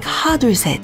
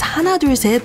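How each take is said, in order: First: The first number is cut to one syllable. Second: The first number is said with both syllables. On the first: "people also pronounce it like 하, 둘, 셋" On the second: "1, 2, 3 is 하나, 둘, 셋"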